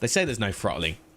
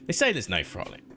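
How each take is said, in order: First: It is said in a plain, sincere tone. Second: It is said in a mocking, sarcastic tone. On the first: The claim is simply reported. "turn off the sarcasm now" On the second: The claim is not to be believed. "I'm going to turn off the sarcasm now"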